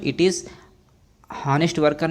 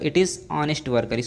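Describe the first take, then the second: First: Honest begins with an audible h sound. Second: Honest begins directly with a vowel sound. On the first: The speaker calls it wrong. "हॉनेस्ट worker नहीं होगा" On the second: The speaker calls it right. "एच जो है silent है"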